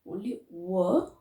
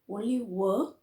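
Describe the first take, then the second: No difference in how they are said.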